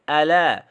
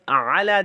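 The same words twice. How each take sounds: First: It begins with a light glottal stop. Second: It begins with a deep throat ain sound. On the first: The speaker calls it wrong. "they say ala" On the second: The speaker calls it right. "So instead of ala"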